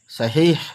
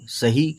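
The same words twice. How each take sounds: First: The word ends with an audible h sound. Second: The word ends on the vowel without h. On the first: "last में है की आवाज पे खत्म होती है बात" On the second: "लेकिन सही कह सकते हैं, कोई पूछने वाला नहीं है"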